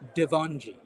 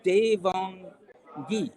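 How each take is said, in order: First: The g is soft, like a j. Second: The g is hard, like in go. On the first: The speaker calls it wrong. "No, it's Devangi" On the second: The speaker calls it right. "So it's a it's a hard G, not a soft G"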